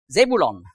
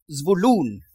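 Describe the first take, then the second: First: The name has three syllables. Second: The name has two syllables.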